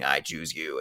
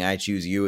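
First: A touch lower and softer, mock demon; understated creepy demon taking over the words; demon's voice. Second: Lightly voiced father, steady and plain; a hint of the dad calling to his daughter; father's voice. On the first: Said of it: "it becomes the demon's voice saying". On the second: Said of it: "it has her father's voice saying".

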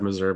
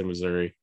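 First: Missouri ending in "uh"; rejected pronunciation. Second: Said in the usual way. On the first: Shown as a demonstration. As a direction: say Missouri as "muh-ZUR-uh". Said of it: "I've never said Missouri my entire life". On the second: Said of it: "I say Missouri".

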